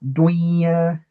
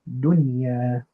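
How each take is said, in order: First: The n is merged into the following y. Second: The n is pronounced clearly before the y. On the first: The speaker calls it wrong. "I don't say dunya. I don't do idgham here" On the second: The speaker calls it right. "I pronounce it clearly and normally"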